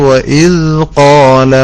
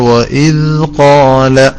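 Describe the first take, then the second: First: The tongue touches lightly on the d sound. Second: The same.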